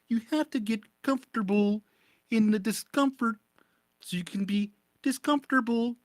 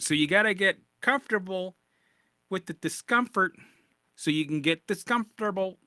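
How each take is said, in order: First: It is said in a Kermit the Frog voice. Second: It is said in his own normal voice.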